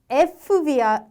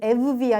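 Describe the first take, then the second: First: An f sound comes before the v. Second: A doubled v sound follows the e. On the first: "에프비아 또는 에브비아 이렇게 되는 게 아니라" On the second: "에프비아 또는 에브비아 이렇게 되는 게 아니라"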